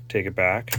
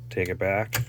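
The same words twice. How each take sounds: The two takes are said the same way.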